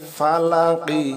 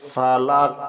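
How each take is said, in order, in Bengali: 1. শব্দটি একটি ছোট i স্বরধ্বনি দিয়ে শেষ হয়েছে। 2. শব্দটি একটি ঝাঁকুনিযুক্ত q ব্যঞ্জনধ্বনি দিয়ে শেষ হয়েছে।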